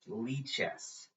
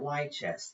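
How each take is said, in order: First: The first syllable sounds like 'lee' in Libre. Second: The first syllable does not sound like 'lee'. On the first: The speaker calls it right. "Lichess as in Libre" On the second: The speaker calls it wrong. "you don't say it Lichess"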